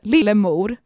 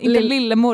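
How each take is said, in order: First: The O vowel is said long. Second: The O vowel is said short. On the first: The speaker calls it right. "det är ett långt O" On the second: The speaker calls it wrong. "Inte lillemor"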